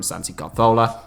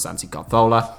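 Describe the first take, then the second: First: The name is said with a Spanish accent. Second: The same.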